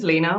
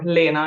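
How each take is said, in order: First: The name is pronounced the English way. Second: The name is pronounced the German way.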